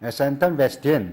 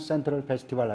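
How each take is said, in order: First: It is said with a Thai-style altered pronunciation. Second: It is said in a plain Korean way. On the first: This is how Thai speakers say it. "이 발음을 어떻게 하는지" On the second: This is how Koreans say it. "우리는 그냥 센트럴 페스티벌 하잖아요"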